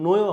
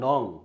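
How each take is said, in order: First: The word ends with a y sound. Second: The word ends with an ng sound. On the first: The speaker calls it wrong. "আসলে উচ্চারণটা নয় হবে না" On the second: The speaker calls it right. "এই উচ্চারণটা হবে হচ্ছে নং"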